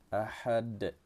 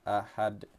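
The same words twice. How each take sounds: First: The final d has a moderate bounce. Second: The final d has no bounce at all. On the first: The speaker calls it right. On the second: The speaker calls it wrong. "Dan jangan pula sampai tidak diqalqalahkan. Ada juga yang bacanya ahad"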